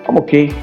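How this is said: It is said in a glum, downbeat tone. The speaker is actually not doing well.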